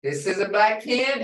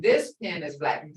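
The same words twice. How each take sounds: First: "black PEN" as one phrase, PEN lifted; stress on PEN. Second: THIS lifted, then falling through "pen is black"; stress on THIS. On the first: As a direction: lean on PEN at the end of the phrase. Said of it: "This is what we need to learn". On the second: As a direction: point out THIS pen, then let black fall. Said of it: "identifies a pen as black". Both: Shown as a demonstration.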